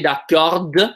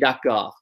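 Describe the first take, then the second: First: The final consonant is sounded. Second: The final consonant is silent. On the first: The speaker calls it wrong. "We don't say d'accord" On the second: The speaker calls it right. "We say d'accord"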